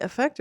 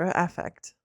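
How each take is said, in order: First: "effect" with an unstressed first vowel; questioned pronunciation, effect. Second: "affect" opened on a clear short A; questioned pronunciation, affect. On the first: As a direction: say "effect" as uh-FECT. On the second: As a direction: say "affect" as AFF-ect. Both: Shown as a demonstration. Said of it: "correcting my grammar today and my pronunciations".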